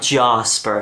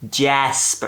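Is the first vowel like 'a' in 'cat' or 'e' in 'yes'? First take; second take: a; e. First: The first vowel sounds like 'a' in 'cat'. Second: The first vowel sounds like 'e' in 'yes'. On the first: The speaker calls it wrong. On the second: The speaker calls it right. "But with an E"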